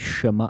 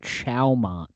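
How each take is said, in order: First: The name is said with a fancy, foreign-sounding pronunciation. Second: The name is said with a plain, anglicized pronunciation. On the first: This is how someone else says it. "he says it's so fancy" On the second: This is how the speaker has always said it. "I call that Chowmont"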